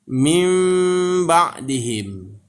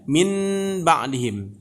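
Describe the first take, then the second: First: The sound before b is an m. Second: The sound before b is a clear n. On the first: "Seakan-akan yang n tadi bertukar menjadi m" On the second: "kalau secara tulisan bacanya min ba'dihim"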